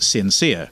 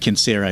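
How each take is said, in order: First: It is pronounced the English way. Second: It is pronounced the Latin way. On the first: "I'm not a Latin scholar, so I naturally pronounced it sincere" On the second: "The pronunciation would be censere in, in Latin"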